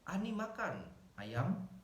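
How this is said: There is a pause after the word makan. "komanya setelah makan"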